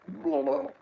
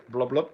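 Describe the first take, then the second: First: High, gurgled underwater blub; shouting underwater. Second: Said in the usual way. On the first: Shown as a demonstration. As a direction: call out as if underwater. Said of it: "that one sounded good". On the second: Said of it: "Like the underwater effect".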